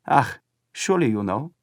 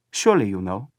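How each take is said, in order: First: A hint of sly smiling German boy; knowing. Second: Lightly voiced smiling boy. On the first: Boy hints at the flag's meaning to Paul, sly smile. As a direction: tease him knowingly. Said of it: "with a curious smile". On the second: Boy repeats his hint to Paul, smiling. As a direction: repeat it with a knowing smile. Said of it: "Smiling, he repeated to Paul". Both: A narrator's reading.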